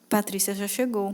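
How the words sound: It is said with a sad tone. The speaker is unhappy about the arrival. "E tristeza"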